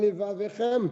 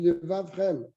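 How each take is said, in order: First: A short vowel is pronounced after the second v. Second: No vowel is pronounced after the second v. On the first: The speaker calls it wrong. "Tu ne dis pas" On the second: The speaker calls it right. "tu dis"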